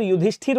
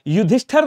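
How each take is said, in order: First: युधिष्ठिर ending in "-thir"; correct last vowel. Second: युधिष्ठिर ending in "-thar"; wrong last vowel. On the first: Teacher correcting students, युधिष्ठिर ending "-thir". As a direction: keep the i in युधिष्ठिर, "yudhishthir". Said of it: "होता है". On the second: Teacher showing students the error, युधिष्ठिर ending "-thar". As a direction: say युधिष्ठिर as "yudhishthar". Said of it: "नहीं होता है साहब". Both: Shown as a demonstration.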